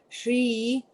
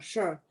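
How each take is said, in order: First: The syllable ends in a clear 'ee' vowel. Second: The syllable ends in a rounded 'ur' vowel. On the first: "some people pronounce it as like Shri" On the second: "actually it's more it should be like sure sure sure"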